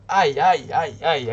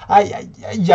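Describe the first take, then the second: First: Mild cry. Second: High, loud aïe, aïe, aïe; shrill cry. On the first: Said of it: "a crié Fanny". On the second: Fanny shrieks during the play. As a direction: yelp it out. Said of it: "a hurlé Fanny". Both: A narrator's reading.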